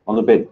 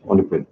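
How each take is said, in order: First: Much higher, louder squeal at the dog; squeaky dog voice. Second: Said in the usual way. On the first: Real, not acted. Streamer scolding his dog on the bed, in a high squeal. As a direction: jump way up high like talking to a pet.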